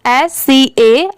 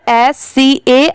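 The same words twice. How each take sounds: The two takes are said the same way.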